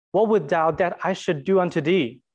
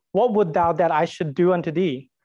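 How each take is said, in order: No difference in how they are said.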